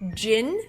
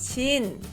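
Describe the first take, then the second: First: The first consonant is a hard J sound. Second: The first consonant is a softened J sound. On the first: The speaker calls it wrong. "the second syllable is not jin" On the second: The speaker calls it right. "it's chin ... Softening the J"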